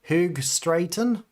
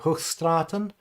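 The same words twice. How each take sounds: First: It is said with an anglicized English accent. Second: It is said with a Dutch-style accent.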